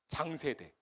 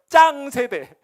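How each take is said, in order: First: The first consonant is plain and soft. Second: The first consonant is tense and strong.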